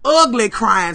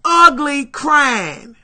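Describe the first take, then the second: First: Said in the usual way. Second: Slow, drawn-out weepy ugly crying. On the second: Shown as a demonstration. Showing the audience how hard she cried, slow sobbing. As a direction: stretch it out through the sobs.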